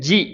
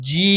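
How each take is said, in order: First: The vowel is held for one short count. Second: The vowel is stretched over four to five counts. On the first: "அதாவது ஒரு கவுண்ட் குடுக்கக்கூடிய ஜி" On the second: "இத நாலிலிருந்து அஞ்சு கவுண்ட் வரைக்கும் நீட்டுனா"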